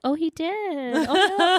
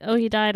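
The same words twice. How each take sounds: First: High-pitched gullible little "oh no"; credulous dismay. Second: Said in the usual way. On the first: Retold or imitated. Listener believes her co-host's fake death news, mock dismay. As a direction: take it in as sad news, voice rising. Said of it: "this is how much I trust Courtney". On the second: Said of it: "when you were like".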